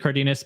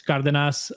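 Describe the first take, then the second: First: The name is said with English pronunciation. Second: The name is said with Spanish pronunciation. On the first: This is how the family says it. "We say Cardenas" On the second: This is the name's original pronunciation.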